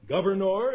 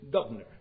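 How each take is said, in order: First: Governor with every vowel sounded, said loudly; louder, fully enunciated Governor; full enunciation. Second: Governor clipped, vowels reduced to schwa; lower, reduced governor; curt slurred pronunciation. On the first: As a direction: Governor pronounced carefully in full. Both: Shown as a demonstration. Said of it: "Cardinal in their mouths is cardinal".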